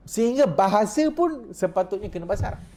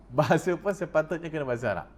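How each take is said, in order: First: Higher, rising on pun in sehingga bahasa pun sepatutnya; animated preacher stressing pun; emphatic. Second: A laughing echo of his own claim. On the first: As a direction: push the point up high and eager. Emphatic point, then laughing repeat. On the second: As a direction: chuckle it back down. Repeats it laughing. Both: Real, not acted.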